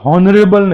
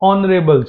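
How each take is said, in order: First: The word begins with an h sound. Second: The word begins with a vowel sound. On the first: The speaker calls it wrong. "હોનરેબલ નહીં" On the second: The speaker calls it right. "ઓનરેબલ છે એટલે અ છે"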